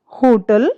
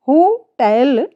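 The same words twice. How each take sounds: First: होटल, weight on हो; wrong stress. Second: होटल, slow, weight on टल; stress on tel. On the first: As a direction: stress the first syllable of होटल. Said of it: "ये हमारा wrong pronunciation है". (गलत उच्चारण होटल) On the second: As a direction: lean on the second syllable of होटल. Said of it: "टेल पर हमें थोड़ा सा जोर देना है". (होटल, टेल पर जोर) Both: Shown as a demonstration.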